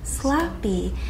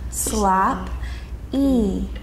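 First: The word is said smoothly as one unit. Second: The word is broken into two separate syllables.

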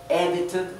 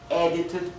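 Both takes have the same delivery.

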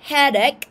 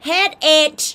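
First: The word ends with a k sound. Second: The word ends without a k sound. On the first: The speaker calls it right. "อันนี้ออกเสียงว่า headache ออกเสียงเป็นตัวเค" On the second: The speaker calls it wrong. "ห้ามออกเสียงว่า"

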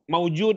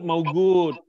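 First: The middle consonant is a J sound. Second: The middle consonant is a hard G sound.

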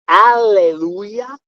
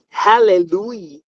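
First: The word starts with no H sound. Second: The word starts with an H sound.

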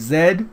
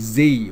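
First: The letter is said the Australian way. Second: The letter is said the American way.

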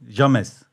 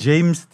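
First: The name is pronounced letter by letter in Turkish. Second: The name is pronounced with English sounds. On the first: The speaker calls it right. "Yani yazıldığı gibi Türkçe okuman lazım" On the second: The speaker calls it wrong. "James değil"

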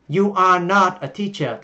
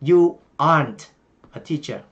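First: Are and not are said as separate words. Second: Are and not merge into one word.

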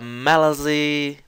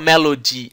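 First: The middle consonant sounds like a z. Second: The middle consonant is a clear d sound. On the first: "colocando um Z no sinal" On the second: "ela não fala Melody"

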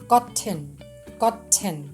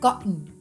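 First: The t sound is fully released. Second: The t sound is held in the throat.

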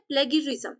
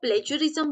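First: The middle consonant is a hard g sound. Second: The middle consonant is a j sound. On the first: "इसको बोला जाता है प्लेगरिज्म" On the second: "कई लोग इसको प्लेजरिज्म बोलते हैं"

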